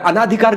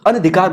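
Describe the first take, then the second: First: The vowel after the first n is long. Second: The vowel after the first n is short. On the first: The speaker calls it wrong. "अनाधिकार गलत है" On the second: The speaker calls it right. "अनधिकार बोलते हैं"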